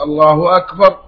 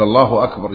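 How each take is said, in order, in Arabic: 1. الحركة الأولى تُمدّ كأنها سؤال. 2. الحركة الأولى قصيرة وثابتة. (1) "أن تستفهم بها بالهمز" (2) "جازما مبتدأ وخبر"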